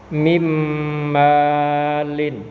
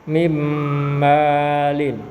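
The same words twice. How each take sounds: Both takes have the same delivery.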